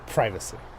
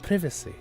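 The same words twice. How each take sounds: First: It is said in a strong American accent. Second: It is said in a non-American accent. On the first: "Should I say it very American now?" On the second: "we'll say it like him"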